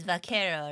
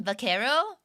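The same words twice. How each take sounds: First: Vaquero said as a statement, falling at the end; confirming fall. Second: Vaquero said as a question, rising at the end; questioning rise. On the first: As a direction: settle on vaquero with a falling tune. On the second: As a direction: ask Vaquero with a rising tune. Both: Shown as a demonstration. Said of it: "how do you say it in Spanish again".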